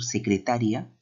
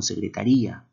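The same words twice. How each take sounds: First: Secretaria with the stress on TA, se-cre-TA-ria. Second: Secretaría with the stress on RÍ, se-cre-ta-RÍ-a; secretaría stressed se-cre-ta-RÍ-a, the í carrying the accent. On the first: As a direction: lean on TA in secretaria, ending in -ria. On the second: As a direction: lean on RÍ in secretaría. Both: Shown as a demonstration. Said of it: "no es lo mismo decir".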